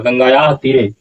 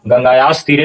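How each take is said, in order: First: The first word ends in a plain vowel. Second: An 's' sound ends the first word. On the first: The speaker calls it right. "यहाँ उच्चारण क्या होगा? गंगाया" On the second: The speaker calls it wrong. "गंगायास तीरे नहीं होगा"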